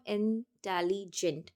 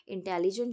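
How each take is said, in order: First: इंटेलिजेंट split into three separate pieces, in-telli-gent; broken into syllables. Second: Said in the usual way. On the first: Shown as a demonstration. Teacher showing the syllables, इंटेलिजेंट in three separated chunks. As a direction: say इंटेलिजेंट piece by piece with small gaps. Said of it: "तीन टुकड़ों में हम इसको finish करेंगे". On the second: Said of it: "तीन टुकड़ों में हम इसको".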